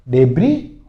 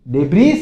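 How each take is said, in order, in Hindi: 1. इस शब्द के अंत में कोई s की आवाज़ नहीं होती। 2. इस शब्द के अंत में साफ़ s की आवाज़ सुनाई देती है। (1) "डेब्री होता है" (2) "डेब्रीज नहीं बोलोगे"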